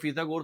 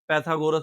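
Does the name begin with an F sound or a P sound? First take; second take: F; P. First: The name begins with an F sound. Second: The name begins with a P sound. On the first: This is how the name is said in Urdu. "Urdu में फीसागोरस बोला जाता है" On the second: This is how the name is said in English. "English के अंदर इसको हम लोग पैथागोरस भी बोलते हैं"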